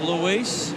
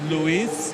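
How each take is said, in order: First: The name is said in a plain English accent. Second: The name is said in an exaggerated French accent.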